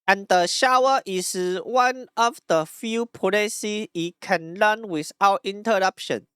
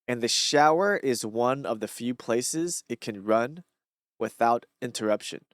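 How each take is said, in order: First: It is read in a heavy Taiwanese-style accent. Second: It is read in his ordinary accent.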